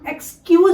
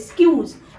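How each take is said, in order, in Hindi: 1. यह शब्द एक साफ़ 'ek' स्वर ध्वनि से शुरू होता है। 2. यह शब्द सीधे 's' ध्वनि से शुरू होता है। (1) "इसे हम एक्सक्यूज नहीं बोलेंगे" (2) "स्क्यूज बोलेंगे"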